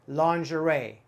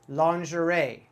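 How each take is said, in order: The two takes are said the same way.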